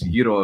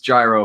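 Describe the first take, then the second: First: The word has a Greek pronunciation. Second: The word has an English pronunciation. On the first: It is being used in Greek conversation. "if I'm speaking Greek" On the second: It is being used in English conversation. "if I'm talking English"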